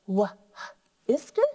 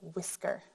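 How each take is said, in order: First: The h is breathed out, split from the rest. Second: The h is silent and the word flows together. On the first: The speaker calls it wrong. "you know not to say wh, isker" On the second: The speaker calls it right. "instead you say whisker"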